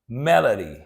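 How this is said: It is said in an American accent. "now in the American accent"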